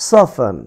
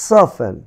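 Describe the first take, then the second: The two takes are said the same way.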